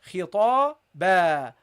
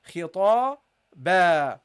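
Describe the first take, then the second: First: The word ends with a long a vowel. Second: The same.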